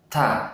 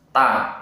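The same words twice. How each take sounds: First: The t has a clear puff of air. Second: The t has no puff of air. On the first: The speaker calls it right. "Yang benar ta dengan angin" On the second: The speaker calls it wrong. "tidak disertai dengan angin ... itu salah"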